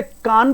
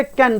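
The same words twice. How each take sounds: First: कान with long "aa", like "kaan"; slow, open-vowel कान; wrong reading. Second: कैन with "ae" vowel, like "kaen"; slow कैन with front vowel; correct reading. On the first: Teacher offering students the wrong option, mispronounced. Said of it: "इसे कान नहीं पढ़ोगे". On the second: Teacher offering students the right option, correctly pronounced. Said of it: "Obvious, इसे कैन पढ़ेंगे". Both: Shown as a demonstration.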